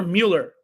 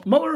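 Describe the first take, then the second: First: Mueller as MYOO-ler, with a y glide; second candidate pronunciation. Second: Muller as MULL-er, short vowel; first candidate pronunciation. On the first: Host unsure of the name, testing Mueller as MYOO-ler. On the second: Host unsure of the name, testing Muller as MULL-er. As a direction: offer "Muller" without a y glide. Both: Shown as a demonstration. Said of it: "Is it M".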